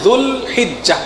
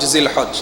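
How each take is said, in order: First: It is said in the Arabic form 'Dhul Hijja'. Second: It is said in the shortened form 'Zilhaj'. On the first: The speaker calls it right. "সঠিক উচ্চারণ হচ্ছে" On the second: The speaker calls it wrong. "ভুল উচ্চারণে অভ্যস্ত হয়ে গিয়েছি"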